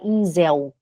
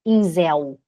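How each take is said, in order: The two takes are said the same way.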